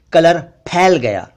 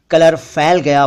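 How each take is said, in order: First: फैल as p-hail; aspirated ph. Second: फैल said with an f; mispronounced ph as f. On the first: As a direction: pop the lips on फैल. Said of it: "ये इस तरह बोलना चाहिए". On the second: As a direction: say फैल as "fail". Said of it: "जबकि असल में ये इस तरह बोलना चाहिए". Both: Shown as a demonstration.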